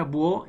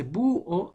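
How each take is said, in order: First: "búho" run together as buÓ; joined vowels. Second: "búho" split as BÚ... o; teacher's two-syllable "búho", strong high U; separated vowels. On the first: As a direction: glide through the U of "búho" onto a stressed o. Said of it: "entonces serían unidas". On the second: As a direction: stretch the U of "búho", then a detached o. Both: Shown as a demonstration.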